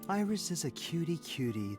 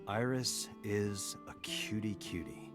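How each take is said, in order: First: It is said warmly, with real feeling. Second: It is said flatly, without feeling. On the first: The speaker calls it right. "Put your heart into it" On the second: The speaker calls it wrong.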